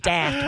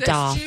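First: It is said with an American-style pronunciation. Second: It is said with a British-style pronunciation. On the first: The speaker calls it wrong. "we wouldn't say daft" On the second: The speaker calls it right. "We'd say daft"

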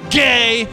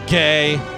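First: It is said in a hostile, defensive tone. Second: It is said in a disapproving, negative tone. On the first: Fear and hidden attraction are shown as hostility. "which means I'm scared of you, I drive a pickup truck" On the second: The thing is judged to be bad.

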